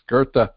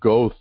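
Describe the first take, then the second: First: The name is said with an R sound. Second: The name is said without an R sound. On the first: The speaker calls it right. "it's pronounced as if there is an R in there" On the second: The speaker calls it wrong. "It looks like Goethe to me"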